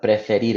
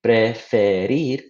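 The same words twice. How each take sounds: First: Said in the usual way. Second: Preferir said slowly, syllable by syllable: pre-fe-rir; split into syllables. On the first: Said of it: "break up preferir into syllables". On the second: Shown as a demonstration. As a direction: slowly tap out each of the three syllables of preferir. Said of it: "it's actually three syllables".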